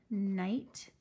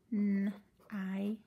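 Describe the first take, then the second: First: Said in the usual way. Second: N-I-T as separate sounds; teacher segmenting the word night; sounded out. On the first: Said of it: "like in the word night". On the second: Shown as a demonstration.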